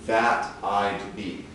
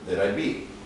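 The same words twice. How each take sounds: First: The phrase is said at a slower pace. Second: The phrase is said at a faster pace.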